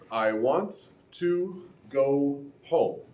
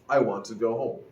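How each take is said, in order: First: Want and to are said separately, both t's. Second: Want and to blend, one t sound dropped. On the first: "Spoken in isolation, that is fine" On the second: "you delete one of the t sounds, and it simply becomes want to"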